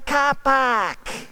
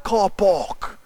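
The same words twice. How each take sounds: First: It is said in an Australian accent. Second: It is said in a non-Australian accent. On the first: This is how the locals say it. "They say car park" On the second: This is how the newcomer is used to saying it. "They don't say car park"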